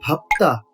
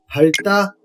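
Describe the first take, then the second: First: A p sound comes before the last syllable. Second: An l sound comes before the last syllable. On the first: The speaker calls it right. "パプタと発音していきます" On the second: The speaker calls it wrong. "パルタではなく"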